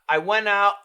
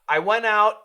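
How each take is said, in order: First: The final T is stopped in the throat. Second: The final T is stopped with the tongue. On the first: "So a glottal stop" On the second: "A frontal stop"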